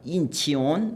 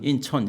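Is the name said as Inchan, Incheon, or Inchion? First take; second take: Inchion; Incheon. First: The name is said with three syllables, 'chi-on'. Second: The name is said with the vowel 'eo'. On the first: The speaker calls it wrong. "인치온 뭐 이렇게 발음할까봐 걱정을 했는데" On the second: The speaker calls it right. "발음을 제법 잘해요"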